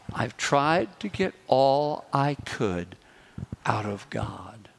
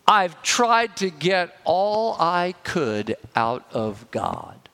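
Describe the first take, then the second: First: Slower, fading down to a whisper on the last words. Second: Said in the usual way. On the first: Retold or imitated. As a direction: let it sink, trailing off to a whisper. Repeating the lady's key phrase.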